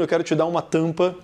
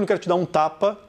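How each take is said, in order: First: TAMPA with a nasalised first A; sample sentence, nasal vowel in TAMPA. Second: TAPA with an open, non-nasal A; sample sentence, no nasal vowel in TAPA; oral A. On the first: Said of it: "esse A tá nasalizado". ("tampa" com A nasal) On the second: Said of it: "esse A não está nasalizado". ("tapa" com A oral) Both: Shown as a demonstration.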